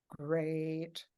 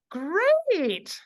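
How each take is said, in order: First: Low, lifeless "great"; unconvincing great. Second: High, loud, drawn-out "great"; beaming great. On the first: Robert failing to sound positive, unconvinced. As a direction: say it softly with no enthusiasm. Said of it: "that wasn't good". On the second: Robert finally answering positively, beaming and enthusiastic. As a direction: belt it out through a big smile. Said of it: "smiles, he goes". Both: Retold or imitated.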